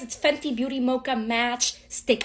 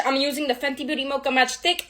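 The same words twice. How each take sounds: First: "Fenty Beauty Mocha Match Stick" said again slower and softer; slower repeat. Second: "Fenty Beauty Mocha Match Stick" rattled off fast; rushed. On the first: Shown as a demonstration. Repeating the product name so viewers catch it, slower. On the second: Real, not acted. Naming her contour stick too quickly, rushed. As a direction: rush the product name out. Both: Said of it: "I need to slow the fuck down".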